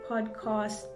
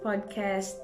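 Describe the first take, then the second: First: "podcast" with a long, open "cast"; South African "podcast". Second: "podcast" with a short, flat "a" in cast; American "podcast". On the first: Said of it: "in South Africa we say podcast". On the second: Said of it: "they say podcast". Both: Shown as a demonstration.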